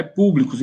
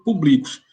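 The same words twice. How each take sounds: First: "públicos" stressed on the first syllable "pú"; "públicos" with the stress on "pú", the correct reading. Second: "públicos" read as paroxytone, stress on "bli"; "públicos" mispronounced with stress on "bli" to show the error; wrong stress. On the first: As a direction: say "públicos" as a proparoxytone, hitting "pú". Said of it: "pelo contexto a gente percebe que". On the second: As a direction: say "públicos" with the middle syllable stressed, as if it had no accent. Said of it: "Se não tem um acento, ficaria pu". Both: Shown as a demonstration.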